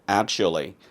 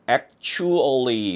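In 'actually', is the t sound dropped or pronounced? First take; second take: dropped; pronounced. First: The syllables are linked and the t is dropped. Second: Each syllable is said separately with a clear t. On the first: The speaker calls it right. "앞에 취에서 트를 없애고 she만 남는 구조가 되어버립니다" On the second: The speaker calls it wrong. "actually 이렇게 지금 발음하면은 영어답지는 않습니다"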